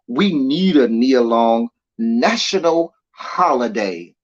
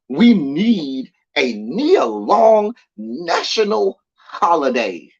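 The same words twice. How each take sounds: First: It is read in a plain, ordinary way. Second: It is read with heightened, dramatic expression.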